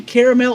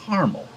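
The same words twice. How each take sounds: First: "caramel" said as CARE-uh-mel; "caramel" with a full middle vowel and clear -mel; three-syllable caramel. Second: "caramel" said as CAR-mul; "caramel" squeezed to CAR-mul, no middle vowel; two-syllable caramel. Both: Shown as a demonstration. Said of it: "Do you say caramel or".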